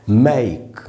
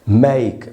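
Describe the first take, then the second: The two takes are said the same way.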